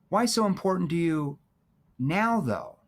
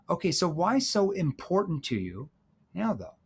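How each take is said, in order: First: The words 'now, though' are emphasized. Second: The emphasis falls on a word other than 'now'.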